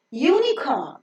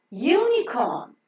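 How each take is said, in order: Both takes have the same delivery.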